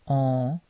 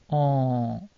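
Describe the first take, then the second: First: The nasal vowel is held somewhat longer. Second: The nasal vowel is held for a very long time. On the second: "or double long"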